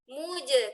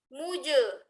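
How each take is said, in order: First: The lips are spread, giving a thin sound. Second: The lips are not spread, giving a thick sound. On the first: The speaker calls it right. "mu kol-kolahkan jimnya muje muje kenapa harus ditarik karena huruf jim adalah huruf tipis" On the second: The speaker calls it wrong. "coba nggak ditarik muje muje seolah-olah jadi tebal"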